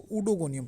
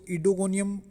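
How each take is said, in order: First: The word begins with an 'oo' sound. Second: The word begins with an 'ee' sound. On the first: "कुछ इसको उडोगोनियम pronounce करते हैं" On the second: "कुछ लोग इसको इडोगोनियम pronounce करते हैं"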